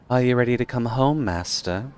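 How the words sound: It is read in a put-on character voice. The speaker calls it right.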